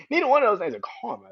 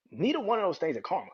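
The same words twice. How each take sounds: First: Louder repeat. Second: Said in the usual way. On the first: Real, not acted.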